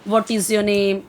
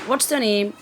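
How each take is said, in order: First: 'What is' is said as two full words. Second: 'What is' is shortened to one syllable, 'what's'. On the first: "व्हाट इज़ your name तो इतना नहीं बोलेंगे" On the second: "shortcut use करते हैं"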